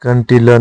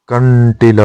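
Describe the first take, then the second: First: कंटीला with a plain n; incorrect form. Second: कंटीला with held retroflex n; correct form. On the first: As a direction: say कंटीला quickly as "kan-teela". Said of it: "नहीं होता". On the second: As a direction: hold the nasal in कंटीला. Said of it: "होता है". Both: Shown as a demonstration.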